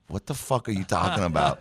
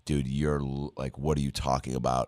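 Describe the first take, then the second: First: Incredulous question, mildly raised; imitated bafflement. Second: Muted, mildly baffled aside to himself; self-doubting inner voice. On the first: Co-star breaking character at his improv, baffled and incredulous. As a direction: drop the act and ask in mock disbelief. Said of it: "her as a person just being like". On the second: Retold or imitated. Actor doubting himself mid-improv, self-questioning inner voice. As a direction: question yourself under your breath, lightly imitated.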